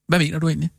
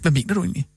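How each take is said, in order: First: The question is asked in a neutral tone. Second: The question is asked in a negative tone. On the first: A sincere request for clarification. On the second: The asker is hostile and dismissive.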